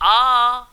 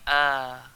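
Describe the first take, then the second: First: The vowel onset is hard and forceful. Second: The vowel onset is gentle and controlled. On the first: The speaker calls it wrong. "Dia tak bunyi a" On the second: The speaker calls it right. "dia bunyi a ... lembut"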